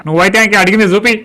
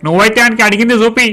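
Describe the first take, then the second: First: Repeated order shouted. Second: Said in the usual way. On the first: Acted. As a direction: shout the order again at the clerk.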